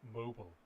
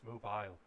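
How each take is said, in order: First: The word ends like 'noble'. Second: The word does not end like 'noble'. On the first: The speaker calls it wrong. "it does sound like you've just got a small rich man in your pocket" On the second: The speaker calls it right. "No, it's mobile"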